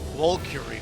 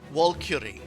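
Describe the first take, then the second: First: The name is said like 'Valkyrie'. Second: The name is said like 'Valkyrie'.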